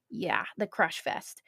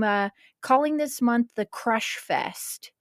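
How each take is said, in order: First: A soft, pleased murmur of the name; quiet echo. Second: Said in the usual way. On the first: Shown as a demonstration. Host savoring her birthday month's name, quietly. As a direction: repeat it much softer, to herself.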